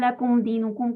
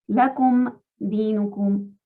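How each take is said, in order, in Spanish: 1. Las palabras se unen como si fueran una sola. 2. La m se oye claramente antes de la siguiente palabra. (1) "como si fuera una sola palabra" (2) "leamos con tranquilidad. Lakum dinukum, que se escuche esa mima"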